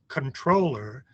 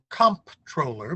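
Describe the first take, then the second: First: No p sound is pronounced in the middle. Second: A p sound is pronounced in the middle. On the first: It is said the way it came from French. The speaker calls it right. "the word is controller" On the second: It is said the way it is spelled. The speaker calls it wrong. "pronounces it comptroller because that's the way it's spelled"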